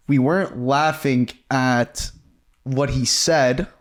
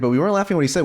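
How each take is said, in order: First: Slow, each word weighted; deliberate slow clarification; slow emphatic denial. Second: Said in the usual way. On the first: Real, not acted. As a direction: spell it out slowly so there's no doubt. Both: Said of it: "we have to say this".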